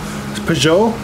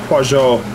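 First: The stress is on the last syllable. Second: The stress is on the first syllable. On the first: "Accent on the last syllable" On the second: "I've been pronouncing it Peugeot"

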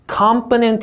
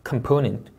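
First: The stress is not on the second syllable. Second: The stress is on the second syllable. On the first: The speaker calls it wrong. "이렇게 읽으면 영어처럼 들립니다만 없는 단어예요" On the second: The speaker calls it right. "이음절 강세요"

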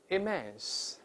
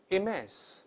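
The two takes are said the same way.

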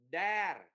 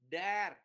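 Both takes have the same delivery.

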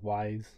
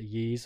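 First: The name sounds like 'wise' with a w. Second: The name sounds like 'yees' with no final z. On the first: "I've always said Wise" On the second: "Is it Yees or Wise?"

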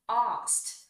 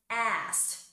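First: The word is said in a British accent. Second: The word is said in a non-British accent.

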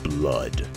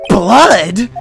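First: It is said in a different, put-on voice. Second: It is said in the reader's normal voice.

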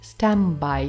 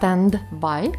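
First: The d is dropped and n sounds like m. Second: The d in standby is clearly pronounced. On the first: "I say standby ticket" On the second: "Замість stand-by"

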